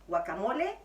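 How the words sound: It is said with a Mexican Spanish pronunciation. "comme on prononce au Mexique"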